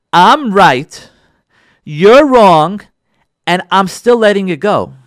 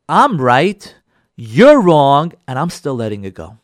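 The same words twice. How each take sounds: First: Each phrase louder, split by pauses; emphatic repeat. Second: Said in the usual way. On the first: Shown as a demonstration. Rabbi repeating the key phrase to his audience, each phrase punched. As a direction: hammer every phrase home. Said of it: "do you hear what I'm saying". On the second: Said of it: "I should say higher level mevater".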